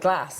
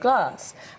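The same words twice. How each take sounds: First: It is said with a northern regional accent. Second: It is said with a standard neutral accent. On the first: "glass instead of" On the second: "instead of glass"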